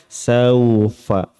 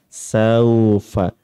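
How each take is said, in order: No difference in how they are said.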